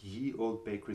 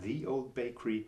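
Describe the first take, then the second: First: The first word begins with a y sound. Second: The first word begins with a th sound. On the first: The speaker calls it wrong. "Also nicht Ye Old Bakery" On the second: The speaker calls it right. "ursprünglich wurde es tatsächlich in The gesprochen"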